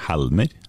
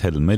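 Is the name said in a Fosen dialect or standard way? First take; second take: Fosen dialect; standard. First: The name is said the Fosen dialect way. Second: The name is said the standard way. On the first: The speaker calls it wrong. "ikke Helmer" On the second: The speaker calls it right. "Du uttales Helmer"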